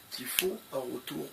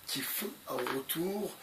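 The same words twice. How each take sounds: The two takes are said the same way.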